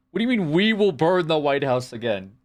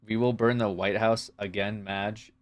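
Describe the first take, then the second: First: High, scoffing repeat of the quote; incredulous mockery. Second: Said in the usual way. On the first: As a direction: throw the line back in mock disbelief. Mock outrage repeating chat quote.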